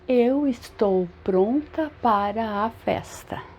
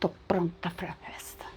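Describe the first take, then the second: First: Each word is said fully and separately. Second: The words are shortened and run together. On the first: The speaker calls it wrong. "É normal você falar assim? ... Não, você não fala assim" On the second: The speaker calls it right. "Você fala, tô pronta para a festa"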